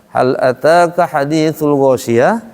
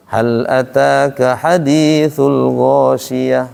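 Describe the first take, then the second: First: Slow chant rising into a question on GHOSHIYAH; question intonation. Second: Slow, evenly chanted verse, no question lift on GHOSHIYAH; sung, recite it slowly, ending level on GHOSHIYAH; sung, Quran recitation, level. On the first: Ustaz shows the verse as if asking, questioning lilt. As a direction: recite it as a question, lifting GHOSHIYAH. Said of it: "kalau pakai nanya". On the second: Ustaz shows how Quran is read, flat chant. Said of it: "kalau baca Quran mah". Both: Shown as a demonstration.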